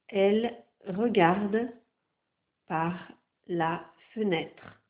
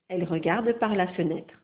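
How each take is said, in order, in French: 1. La phrase est lue à un rythme plus lent. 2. La phrase est lue à un rythme normal. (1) "Je vais maintenant lire plus lentement" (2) "Je vais d'abord lire l'intégralité de la dictée"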